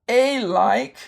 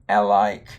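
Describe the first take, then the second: First: The first vowel is a long sound. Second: The first vowel is a short sound. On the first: "You could say this with the long sound" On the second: "you could say it with a short sound"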